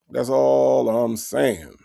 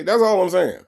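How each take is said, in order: First: Slow, drawn-out "That's all I'm saying"; slow emphatic repeat. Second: Said in the usual way. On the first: Shown as a demonstration. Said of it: "repeats his point slower". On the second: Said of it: "repeats his point".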